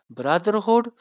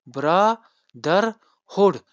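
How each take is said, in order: First: Said in the usual way. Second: "brotherhood" split slowly into bro, ther, hood; syllable by syllable. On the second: Shown as a demonstration. Teacher counting syllables for students, "brotherhood" said syllable by syllable. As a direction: say "brotherhood" in three drawn-out beats with pauses. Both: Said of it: "number of syllable three".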